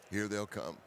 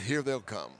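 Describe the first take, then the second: First: Much softer, almost whispered; hushed repeat. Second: Said in the usual way. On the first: Real, not acted. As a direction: say it quietly as if deer are near. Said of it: "repeated much softer". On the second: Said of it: "first take".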